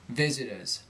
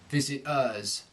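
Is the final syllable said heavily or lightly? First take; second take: lightly; heavily. First: The final syllable is light and reduced. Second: The final syllable is given too much weight. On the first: The speaker calls it right. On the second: The speaker calls it wrong.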